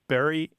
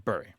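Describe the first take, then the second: First: The vowel sounds like the one in merry. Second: The vowel sounds like the one in fury. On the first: This is the usual pronunciation. "Most people throughout the English-speaking world do say B U R Y the same as they say B R R Y" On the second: This pronunciation follows the spelling. "follow the more typical pronunciation of the U"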